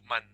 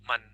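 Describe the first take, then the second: The two takes are said the same way.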